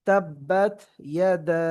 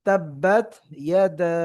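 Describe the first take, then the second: No difference in how they are said.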